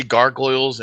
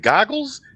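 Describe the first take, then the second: First: Gargoyles with a clear R in both syllables; own pronunciation. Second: Goggles said high, as a puzzled question, no R sound; imitating his pronunciation. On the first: Shown as a demonstration. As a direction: say gargoyles the way she says it, R fully sounded. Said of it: "I say gargoyles". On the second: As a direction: mimic the singer swallowing the R so it comes out goggles. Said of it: "he sounded like he said goggles".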